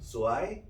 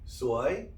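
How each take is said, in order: First: It is said with the tone meaning beautiful. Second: It is said with the tone meaning unlucky. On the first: The choir's singing was beautiful. "아주 아름답다" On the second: The choir's singing was wretched. "재수 없다"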